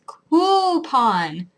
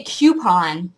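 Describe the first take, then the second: First: "coupon" said koo-pon, very slow and firm; "coupon" as koo-pon, insistent. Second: "coupon" said kyoo-pon, slow and disdainful; "coupon" as kyoo-pon, mocked; mocking kyoo-pon. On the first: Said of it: "It's coupon". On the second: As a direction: sneer out "coupon" with a y sound. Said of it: "if you say coupon". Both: Shown as a demonstration.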